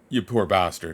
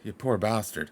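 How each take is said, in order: First: It is said in a dismissive, sarcastic tone. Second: It is said in a sympathetic, pitying tone. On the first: The listener is told to stop complaining. "One is yeah, give me a fucking break, like go fuck yourself" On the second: The listener's hardship is acknowledged with pity. "the other is oh Jesus, like you went through a bad thing there"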